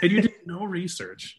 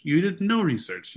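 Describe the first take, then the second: First: "you did no research" said high and pressed; stress on no research. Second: "NO research" slowed and leaned on; slow stress on NO. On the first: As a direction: hit "no research" hard. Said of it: "repeated for emphasis". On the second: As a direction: drag out "You did no research" with weight on "no". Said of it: "repeated slower". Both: Real, not acted.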